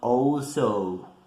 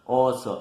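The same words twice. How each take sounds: First: The first vowel glides from O toward U. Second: The first vowel is one pure O sound. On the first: The speaker calls it wrong. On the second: The speaker calls it right.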